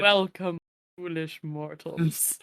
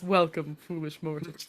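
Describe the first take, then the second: First: Slow deep ghost host voice; booming demon lord. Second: A hint of the low ghost host; lightly voiced spooky greeting; booming demon lord. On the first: Retold or imitated. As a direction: intone it like a spooky host. Quotes Haunted Mansion opening. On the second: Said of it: "that opening that starts when".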